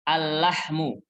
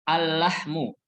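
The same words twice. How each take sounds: No difference in how they are said.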